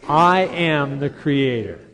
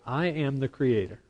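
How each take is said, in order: First: It is said with more energy and gusto. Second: It is said with little energy.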